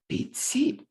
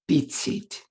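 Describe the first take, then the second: First: The stress falls on the second word. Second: Both words carry equal stress. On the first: "stress on the syllable containing the target sound" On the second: "equal stress on the syllables"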